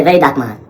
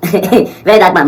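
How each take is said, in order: First: Said in the usual way. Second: Laughing repeat. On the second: Real, not acted.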